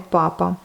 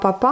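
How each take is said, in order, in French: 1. L'accent est sur la première syllabe. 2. L'accent est sur la dernière syllabe. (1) "mais papa" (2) "pas papa"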